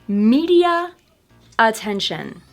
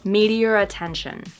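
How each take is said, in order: First: A clear break separates the two words. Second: The words run together with no R. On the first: "first with the words separated" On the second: "linking them but not using the intrusive R. And this is actually how I say them personally"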